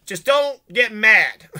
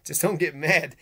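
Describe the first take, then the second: First: Mock shout. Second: Said in the usual way. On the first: What do you mean?.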